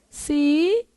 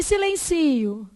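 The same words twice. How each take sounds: First: Silencio as si, len, ci, o, held apart; syllable by syllable. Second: Said in the usual way. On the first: Shown as a demonstration. Teacher dividing Silencio, syllable by syllable. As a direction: break Silencio into four separate syllables.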